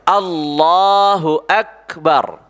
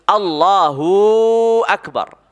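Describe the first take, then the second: First: No vowel is drawn out; all are short. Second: The vowel of hu is drawn out long. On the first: The speaker calls it right. "Begitu ucapnya" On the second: The speaker calls it wrong. "panjang hunya"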